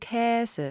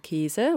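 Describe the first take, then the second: First: The first vowel is an open ä sound. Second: The first vowel is a closed e sound. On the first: This is the form listed in the pronunciation dictionary. "Käse mit Ä" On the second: This is how most media speakers actually say it. "Die meisten oder viele Mediensprecher sagen Käse"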